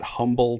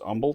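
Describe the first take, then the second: First: The word begins with an audible H sound. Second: The word begins with no H sound. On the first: This is how people not from the area say it. The speaker calls it wrong. "You probably want to call that Humble" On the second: This is how locals say it. The speaker calls it right. "They don't pronounce the H"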